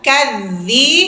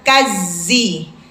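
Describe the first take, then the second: First: The middle consonant is a soft th-like sound. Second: The middle consonant is a plain z sound. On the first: The speaker calls it right. "zal kadzi, melet" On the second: The speaker calls it wrong. "bukan kazi"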